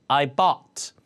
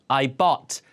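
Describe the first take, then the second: No difference in how they are said.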